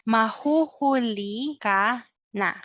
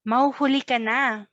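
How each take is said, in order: First: It is said at a normal pace. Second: It is said at a faster pace.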